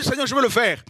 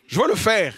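First: High keen reply to the Lord; preacher replying to God's call, keen and high; eager servant. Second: Said in the usual way. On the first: Retold or imitated. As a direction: answer God eagerly and quickly. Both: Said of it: "Prêche ma parole".

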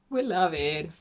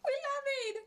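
First: Said in the usual way. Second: Much higher, softer gushing; real happy high coo; high quiet squeal of delight. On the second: Real, not acted. Admires finished makeup.

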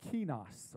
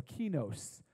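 First: "kinos" with a short, open last vowel; alternative pronunciation. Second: "kinos" with a long O at the end; corrected pronunciation. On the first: Preacher trying the Greek word, "kinos" said as KEE-noss. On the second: Preacher correcting the Greek word, "kinos" said as KEE-nohs. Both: Shown as a demonstration. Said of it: "It's actually pronounced kinos".

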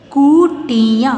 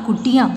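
First: कुटिया slow with each syllable stretched. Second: Said in the usual way. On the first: Shown as a demonstration. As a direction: sound out कुटिया in pieces. (कुटिया को तोड़-तोड़ कर, धीरे) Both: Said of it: "properly बोलना है".

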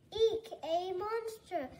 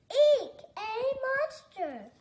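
First: "Eek, a monster!" read with only a touch of fright; a barely frightened "Eek"; mild mock scream. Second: "Eek, a monster!" shrieked high and loud with a laugh; laughing scream. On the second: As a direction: squeal "Eek" playfully, giggling. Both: A narrator's reading. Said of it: "screamed Fox".

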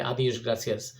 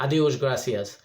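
First: Softer formal Portuguese "আদিওস গ্রাসিয়াস", said carefully; formal farewell. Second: Careful Portuguese "আদিওস গ্রাসিয়াস", each syllable clear; Portuguese farewell. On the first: Vlogger showing the formal way to say goodbye, soft and careful "আদিওস গ্রাসিয়াস". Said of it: "আপনি যদি formal বলতে চান তাহলে". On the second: Vlogger teaching viewers a Portuguese goodbye, "আদিওস গ্রাসিয়াস" said clearly. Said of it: "বিদায় নেওয়ার মুহূর্তে". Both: Shown as a demonstration.

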